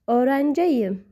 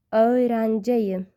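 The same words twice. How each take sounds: First: Said in the usual way. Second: Slow, careful Öğrenciyim; slow repeat. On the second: Shown as a demonstration. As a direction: say Öğrenciyim slowly, syllable by syllable. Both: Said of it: "Listen and repeat after me".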